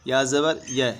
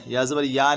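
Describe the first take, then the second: First: या ज़बर य ending on a short "ya"; correct short vowel. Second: या ज़बर या ending on a long "yaa"; wrong long vowel. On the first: Teacher spelling for learners, final य kept short. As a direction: clip the final य, no stretching. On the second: Teacher showing the error, final या lengthened. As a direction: stretch the final या as the mistake. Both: Shown as a demonstration. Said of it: "या ज़बर या नहीं".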